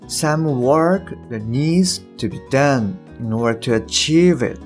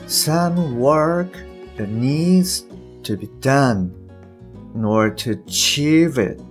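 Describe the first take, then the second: First: It is read at a faster, smoother pace. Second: It is read slowly with exaggerated articulation.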